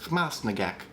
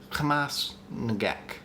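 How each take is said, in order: First: Hamas Nagek joined without a break, falling; run together. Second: Hamas Nagek slowly, clear gap after the S of Hamas; break after S. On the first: Host comparing syllable breaks, Hamas Nagek run together. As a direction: say Hamas Nagek as one connected word. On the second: Host answering viewer, Hamas Nagek broken after the S. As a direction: split Hamas Nagek in two, pausing after the S. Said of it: "break the syllables in this first word between the S". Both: Shown as a demonstration.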